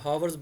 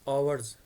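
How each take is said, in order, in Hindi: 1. शब्द की शुरुआत में h की आवाज़ साफ़ सुनाई देती है। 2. शब्द सीधे एक स्वर की आवाज़ से शुरू होता है। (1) "बहुत से लोग जो ना वो हावर्स बोलते हैं, ऐसे नहीं होता" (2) "एच है ये साइलेंट रह जाएगा"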